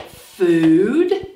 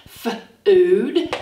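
First: Said in the usual way. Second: F-ood with the f held apart; sounded out. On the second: Shown as a demonstration. Teacher sounding out F-ood for children. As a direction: hold the F, then ood. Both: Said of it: "we have the f sound".

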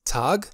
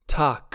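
First: "Tag" ending in a voiced g; final G sound. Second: "Tag" ending in a hard k; final K sound. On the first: Teacher shows a regional variant, final G sound. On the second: Teacher shows the other regional variant, final K sound. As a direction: close "Tag" sharply on a k, like tahk. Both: Shown as a demonstration. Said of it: "poate fi pronunțat cu G".

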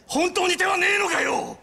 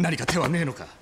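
First: Begging shout to the doctor; desperate shout. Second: Said in the usual way. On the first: Acted. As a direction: cry out at the doctor for a way. Desperate brother begs doctor.

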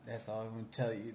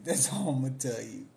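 First: Said in the usual way. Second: Laughing through a teasing refusal; giggling, coy refusal to spill gossip; laughing repeat. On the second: Real, not acted. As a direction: say it again while cracking up, louder.

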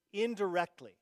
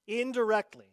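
First: Said in the usual way. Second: Indirectly said again, higher and louder; stressed repeat. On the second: Shown as a demonstration. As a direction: hammer the word Indirectly home.

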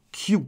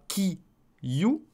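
First: "kyu" as one beat; "kyu" with no break inside; merged syllable. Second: "ki, you" in two beats with a gap; "ki" and "you" kept apart; two separate syllables. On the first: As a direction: glide k straight into you in "kyu". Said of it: "il va s'assimiler avec le ki". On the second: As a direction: pause between ki and you. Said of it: "Ça ne fera pas ki, you". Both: Shown as a demonstration.

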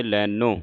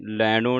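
First: ਲੈਨੋ with a dental n; tongue on the teeth for the n in ਲੈਨੋ; correct pronunciation. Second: ਲੈਣੋ with a retroflex ṇ; wrong pronunciation. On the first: Teacher showing which n to sound, correct pronunciation. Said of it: "ਇੱਥੇ ਨੰਨੇ ਦੀ ਆਵਾਜ਼ ਉਚਾਰਨ ਹੋਵੇ". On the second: Teacher warning the congregation off a misreading, wrong pronunciation. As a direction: curl the tongue back for the n in ਲੈਣੋ. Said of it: "ਨਾਣੇ ਦੀ ਆਵਾਜ਼ ਉਚਾਰਨ ਨਾ ਹੋਵੇ". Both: Shown as a demonstration.

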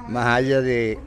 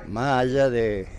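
The two takes are said the same way.

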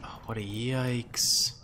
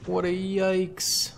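First: Said in the usual way. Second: Higher, slow, put-on wail of yikes; mock dismayed voice. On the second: Gamer groaning at his troops in a mock voice. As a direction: stretch it out in a silly high whine.

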